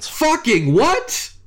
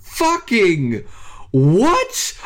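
First: High, stretched disbelief in one go; slow, high-pitched astonished question; incredulous. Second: High, two words split by a pause; stunned, drawn-out disbelief, word by word; incredulous. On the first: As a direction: blurt it as a high rising question. Stunned by the limited edition news. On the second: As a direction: let "Fucking" fall, then shoot "what" upward. Repeats stunned question, broken in two. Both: Real, not acted.

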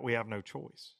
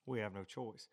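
First: Said in the usual way. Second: Hushed heavy repeat. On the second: Retold or imitated. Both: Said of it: "and Brad's like".

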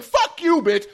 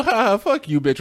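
First: High-pitched aggressive outburst; demonstrated hostile jab, much higher; mock aggressive. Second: Laughing, higher-pitched playful jab; light, teasing laugh in the voice; joking. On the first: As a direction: hurl it like a real insult, pitch way up. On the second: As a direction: toss the insult off with a laugh. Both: Shown as a demonstration. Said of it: "leading to a different type of feeling".

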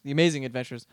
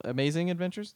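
First: "The Amazing Adventures" stated firmly, without a questioning rise; brisk statement of "The Amazing Adventures"; confirming. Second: AMAZING ADVENTURES with a questioning rise. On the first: Confirms the corrected title. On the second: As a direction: check "Amazing Adventures" as a higher-pitched question. Checks the title, then confirms it. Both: Real, not acted.

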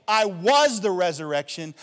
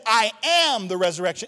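First: "was" punched loudly as the wrong word; loud preaching with the weight on "was"; stress on was. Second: "am" punched high and loud; loud preaching with the weight on "am"; stress on am. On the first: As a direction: hit "was" hard to set up a contrast. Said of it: "He didn't say". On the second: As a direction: hit "am" hard as the correcting word. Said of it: "He says". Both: Shown as a demonstration.

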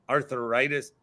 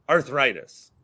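First: Arthritis with an extra syllable, arthur-itis; mispronounced. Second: Said in the usual way. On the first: Shown as a demonstration. Host admits his mistake, arthritis said as arthur-itis. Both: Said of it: "apparently I say arthritis".

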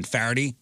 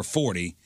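First: FARADAY as "far-dee", forty with an AR. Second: Said in the usual way. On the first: Shown as a demonstration. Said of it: "swap the A R sound for the O R". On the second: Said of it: "swap the A R sound".

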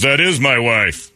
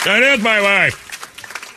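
First: Slow, slightly higher, mildly indignant; mildly put-out husband; retold indignant correction. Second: Very slow, high-pitched mock indignation; mock outraged cry, every word drawn out; hammed-up outrage. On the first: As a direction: correct them slowly, a touch affronted. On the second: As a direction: stretch it out like an exaggerated affronted husband. Retold husband outraged, repeated bigger.

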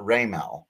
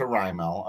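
First: Raimel said as RAY-mel; early mispronunciation. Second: Raimel said as RYE-mel; corrected Raimel. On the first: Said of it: "we all thought Raimel". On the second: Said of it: "corrected us to Raimel". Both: Shown as a demonstration.

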